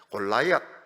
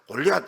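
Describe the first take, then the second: First: The middle syllable is said as 'lai'. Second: The middle syllable is said as 'li'. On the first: This is the English way of saying it. The speaker calls it right. "골라이앗 이렇게 하시기 바랍니다" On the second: This is the Korean way of saying it. The speaker calls it wrong. "골리앗 이렇게 하지 마세요"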